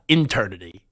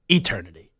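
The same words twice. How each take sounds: First: The opening E sound is weak and reduced. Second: The opening E sound is clearly emphasized. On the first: The speaker calls it wrong. "not eternity" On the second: The speaker calls it right. "I had to emphasize the E a little bit"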